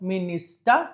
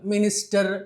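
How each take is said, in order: First: The word ends without any r sound. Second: The final r sound is clearly pronounced. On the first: The speaker calls it right. "ఈ మాదిరిగా చూసుకోవాలి" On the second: The speaker calls it wrong.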